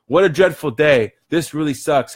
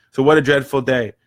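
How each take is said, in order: First: Mock complaining. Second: Said in the usual way. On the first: Shown as a demonstration. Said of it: "How do you feel right now?". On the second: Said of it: "what is dreadful is your reaction".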